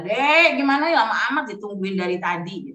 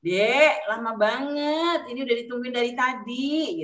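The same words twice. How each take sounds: First: Raised, nagging parent's call; impatient door-banging call. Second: Drawn-out, gentler complaint; softened tone. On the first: Acted. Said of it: "Sambil ngetuk pintu dengan suara". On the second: Shown as a demonstration. Parent waiting for child, complaint in softened intonation. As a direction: stretch it out into a mild, patient plea. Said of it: "nadanya mungkin ya".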